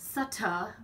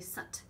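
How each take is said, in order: First: The final t is followed by an extra vowel. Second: The final t is cut short with no vowel. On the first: The speaker calls it wrong. "we don't say sutta" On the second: The speaker calls it right. "we say sut"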